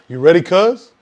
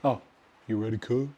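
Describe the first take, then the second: First: It is said with lots of energy. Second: It is said with less energy.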